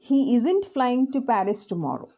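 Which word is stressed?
Paris. The stress falls on the word Paris. He is going to a different place. "So he is going to a different place"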